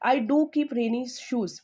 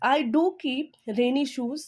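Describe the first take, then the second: First: "do" pressed, slow falling read; emphatic do repeated; stress on do. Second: "do" pressed, slow rising read; emphatic do in a slow demo; stress on do. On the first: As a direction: punch do, slow. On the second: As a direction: lean hard on do. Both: Shown as a demonstration. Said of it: "do का मतलब भी मैंने stress लगाया है".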